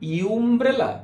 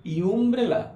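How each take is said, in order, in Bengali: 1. শব্দটি 'you' ধ্বনি দিয়ে শুরু হয়। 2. শব্দটি 'you' ধ্বনি দিয়ে শুরু হয়।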